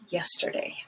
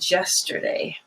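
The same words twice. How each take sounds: First: The word begins with a Y sound. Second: The word begins with a J sound. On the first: The speaker calls it right. "But it's just two years and yesterday" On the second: The speaker calls it wrong. "And they say yesterday"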